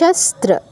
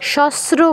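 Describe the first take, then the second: First: The word is said with a clear t sound. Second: The word is said without a t sound. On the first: The speaker calls it right. "তয়ের উচ্চারণটা করতে হবে" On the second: The speaker calls it wrong. "শস্ত্র বলা যাবে না"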